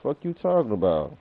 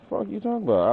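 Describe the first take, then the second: First: Said in the usual way. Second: Pitched way up, mocking; high mocking squeak. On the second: Streamer mocking a critic in a high squeak. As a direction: squeak it like a taunt.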